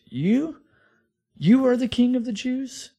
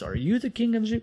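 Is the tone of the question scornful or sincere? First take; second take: scornful; sincere. First: It is scornful, with weight on the first word. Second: It is asked as a plain, sincere question. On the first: He mocks the idea that this beaten man is king. "it's really like this. In the Greek language, "you" is actually at the beginning" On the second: He is genuinely asking Jesus. "we read that as a question like he was asking Jesus"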